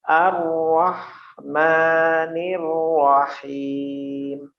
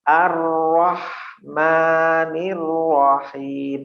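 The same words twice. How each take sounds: Both takes have the same delivery.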